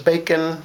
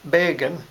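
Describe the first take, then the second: First: The middle consonant is a K sound. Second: The middle consonant is a G sound. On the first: This is the English source word. "We heard it as bacon" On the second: This is the borrowed word in the speaker's language. "You hear it with a G"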